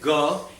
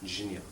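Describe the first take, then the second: First: The syllable is said as a plain ga. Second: The syllable is said as j plus nya. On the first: This is the Bengali way. "Bengalis will say ga" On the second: This is the likely original form. "originally just a jnya. Ja and nya"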